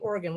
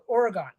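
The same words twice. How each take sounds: First: The word is pronounced the American way, not as spelled. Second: The word is pronounced fully, as it is spelled. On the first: This is how Americans say it. "You guys say Oregon" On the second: This is how people up north say it. "we pronounce it like it's spelled Oregon"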